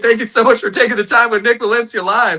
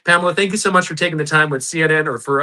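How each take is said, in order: First: Higher, louder, laughing redo; excited. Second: Said in the usual way. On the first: Real, not acted. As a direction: beam the thanks out with delight. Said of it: "you got me back in the day". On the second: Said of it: "you got me back in the, uh, back in the day".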